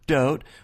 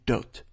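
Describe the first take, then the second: First: It is said with an American accent. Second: It is said with an Israeli accent. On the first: "our word dote" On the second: "they would say dote"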